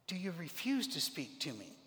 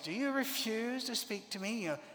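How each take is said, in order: First: It is read in a plain, neutral tone. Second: It is read in a haughty, commanding tone.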